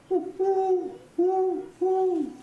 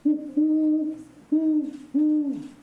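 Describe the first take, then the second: First: The call is pitched higher. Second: The call is pitched lower.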